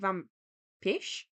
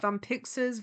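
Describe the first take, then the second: First: The x is said as a sh sound. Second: The x is said as a ks sound. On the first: "sometimes an X and a Z can be a sh sound" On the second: "There's several ways I could pronounce that"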